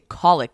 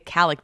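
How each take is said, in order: First: The first vowel sounds like in 'call'. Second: The first vowel sounds like in 'California'. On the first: This is the other person's way of saying it. "you say colic, like a phone call" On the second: This is the speaker's own way of saying it. "I say calic, like California"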